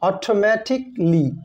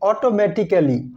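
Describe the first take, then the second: First: The a in the ending is silent. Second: The a in the ending is pronounced. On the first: The speaker calls it right. "Silent থাকে" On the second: The speaker calls it wrong. "Not"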